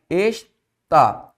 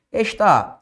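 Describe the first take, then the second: First: "está" in two separated syllables; split into syllables. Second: Said in the usual way. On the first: Shown as a demonstration. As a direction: break "está" as es, pause, tá.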